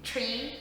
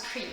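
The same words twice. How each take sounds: First: Said in the usual way. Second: "tree" for three, with a hard T; "tree" in an Irish accent; Irish pronunciation. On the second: Shown as a demonstration. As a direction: say "tree" with T in place of TH. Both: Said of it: "tree becomes tree".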